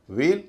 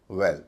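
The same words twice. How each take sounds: First: "वेल" as veil, drawn-out ay; long vowel. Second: "वेल" as well with brief e; short vowel. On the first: Teacher repeating the contrast, long vowel. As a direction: lengthen the ए in "वेल". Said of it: "ए जो है लंबा है". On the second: Teacher repeating the contrast, short vowel. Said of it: "ए जो छोटा है". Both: Shown as a demonstration.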